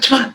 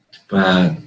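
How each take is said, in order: First: The word is said fast. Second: The word is said slowly.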